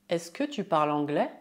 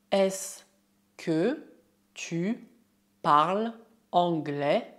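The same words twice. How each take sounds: First: Fast, flowing French question; normal speed. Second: Slow, word-by-word French question. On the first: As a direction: run it together at natural speed. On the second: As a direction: spell it out slowly, pausing after each word. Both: Shown as a demonstration. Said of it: "é possível usar a fórmula est-ce que oralmente".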